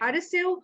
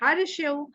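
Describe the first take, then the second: First: The middle consonant is an s sound. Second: The middle consonant is an sh sound. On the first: The speaker calls it right. "तो हमें हरसेव और बरसेव पढ़ना चाहिए" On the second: The speaker calls it wrong. "हमें हरशेव और बरशेव नहीं पढ़ना चाहिए"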